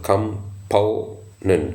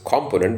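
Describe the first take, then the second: First: The stress is on the second syllable. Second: The stress is on the first syllable. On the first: The speaker calls it right. "the stress um, is on the second syllable" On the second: The speaker calls it wrong. "Many pronounce it as component"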